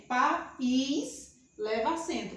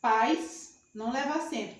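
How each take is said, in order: First: "país" split as pa-ís, slow, stress on the í; país in two syllables. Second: "pais" said as a single-syllable diphthong, pajs; pais as one syllable. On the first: Teacher contrasting words for the class, slow pa-ís with stressed í. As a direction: draw out "país" slowly, two clear syllables. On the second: Teacher contrasting words for the class, "pais" as one beat. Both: Shown as a demonstration.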